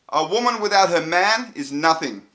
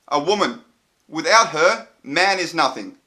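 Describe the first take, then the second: First: It is said straight through without pauses. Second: It has pauses around "without her".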